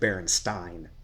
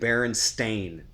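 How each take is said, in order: First: The last syllable rhymes with Frankenstein. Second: The last syllable does not rhyme with Frankenstein. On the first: The speaker calls it wrong. "Like Frankenstein?" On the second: The speaker calls it right. "All of you say Berenstain"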